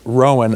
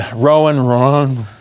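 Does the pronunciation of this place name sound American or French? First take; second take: American; French. First: The name is said with a plain American accent. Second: The name is said with a French-sounding accent. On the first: The speaker calls it wrong. "that was as hick as it gets right there" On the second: The speaker calls it right. "If you hold your lips just right, it comes out kind of Frenchy"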